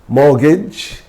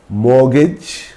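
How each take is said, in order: The two takes are said the same way.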